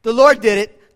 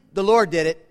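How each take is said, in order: First: "Lord" hit hard and loud; emphatic. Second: Said in the usual way. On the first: Shown as a demonstration. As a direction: punch "Lord" in "The Lord did it".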